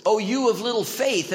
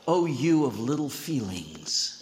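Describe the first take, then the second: First: Louder correct quote. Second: Said in the usual way. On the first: Shown as a demonstration. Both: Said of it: "It's always".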